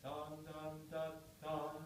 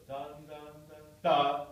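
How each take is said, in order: First: Sung "Dun, dun" with short gaps before each note; separated sung notes. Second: Sung "dun, dun, dun" then a much louder "da" punched out; too loud accent. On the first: Teacher shows student the prepared note, sung detached. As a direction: sing "Dun, dun" detached, leaving space. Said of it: "a little more time to prepare it". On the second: Teacher shows the wrong loud accent to the student. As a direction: hit the last "da" far too loud. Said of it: "That's too loud". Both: Shown as a demonstration.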